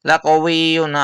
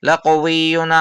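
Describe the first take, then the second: Both takes have the same delivery.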